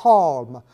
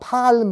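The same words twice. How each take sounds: First: The vowel lies between an 'a' and 'o' sound. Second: The vowel is a plain open 'a' sound. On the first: The speaker calls it right. "nó đọc là palm" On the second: The speaker calls it wrong. "mà đọc là palm là không đúng"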